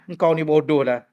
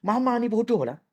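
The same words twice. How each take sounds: First: Friend's insult. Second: Put-on child's insult. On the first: Retold or imitated. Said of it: "Kalau kawan kita kata bodoh".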